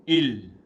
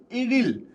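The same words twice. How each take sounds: First: इल said short and clipped as one syllable, the wrong way; plain इल, the mistake to avoid. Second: इरिल with a light flapped r between the two i sounds, higher; the right form, इरिल, two syllables with a flapped r; correct Korean. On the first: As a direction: say इल short, with no r sound, the incorrect way. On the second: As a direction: say इरिल with a tapped r linking ई and ल. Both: Shown as a demonstration. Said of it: "इल, इल नहीं बोलते".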